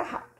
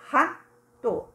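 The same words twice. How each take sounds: First: Said in the usual way. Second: "Rato" in two parts with a gap; syllables separated. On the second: Shown as a demonstration. Teacher showing two separated syllables, split "Rato". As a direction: give each syllable of "Rato" its own beat. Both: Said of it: "separada as duas sílabas".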